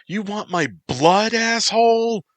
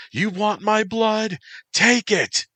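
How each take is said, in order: First: "blood" rising, much higher and louder, screamed; tearful yell. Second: "my" hit hard, falling, much higher and louder; tearful yell. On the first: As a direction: scream the question, "blood" climbing up. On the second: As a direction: throw "my" at him, falling. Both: Acted. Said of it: "she yelled as the tears poured".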